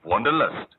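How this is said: The middle vowel sounds like English 'lust'. "তোমার মতো উচ্চারণ করেনি ... ইংরেজি উচ্চারণই হয়"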